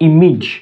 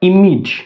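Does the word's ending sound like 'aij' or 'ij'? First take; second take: ij; ij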